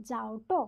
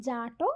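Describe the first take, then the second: First: যাওটো glided as jaa-o-ṭo; faint o-glide. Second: জাটো with a long drawn aa, jaa-ṭo; জাটো said directly as jaa-ṭo; lengthened vowel. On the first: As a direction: slip a light o into যাওটো before ṭo. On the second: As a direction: hold the aa in জাটো straight into ṭo, no o-glide. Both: Shown as a demonstration. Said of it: "কেউ বলে".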